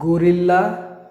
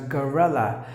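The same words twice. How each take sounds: First: The first syllable has an 'o' vowel. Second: The first syllable has an 'ah' vowel. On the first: The speaker calls it wrong. "Not gorilla" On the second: The speaker calls it right.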